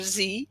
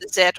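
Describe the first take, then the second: First: The letter is said the American way, as zee. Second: The letter is said the British way, as zed.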